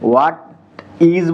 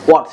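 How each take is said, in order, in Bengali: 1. এটা দুটো পূর্ণ শব্দ হিসেবে বলা হয়। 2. এটা একটি সংকুচিত শব্দ হিসেবে বলা হয়। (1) "এটাকে হোয়াট ইজ বলি আমরা" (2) "ওরা একবারে বলে হচ্ছে ওয়াটস"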